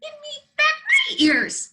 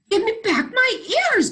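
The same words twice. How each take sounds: First: Very high, loud squeak. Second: High, loud mock bark. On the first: Acted. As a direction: squeak it out like a tiny bunny. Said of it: "squeaked the bunny". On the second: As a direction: bark the demand like a small dog. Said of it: "barked the kitten".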